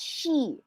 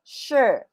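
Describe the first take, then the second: First: The vowel sounds like 'ee'. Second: The vowel sounds like 'er'. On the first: The speaker calls it wrong. "this is not she" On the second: The speaker calls it right. "This is sure"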